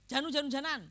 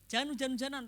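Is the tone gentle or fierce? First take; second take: fierce; gentle. First: It is said in a harsh, fierce tone. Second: It is said in a soft, gentle tone.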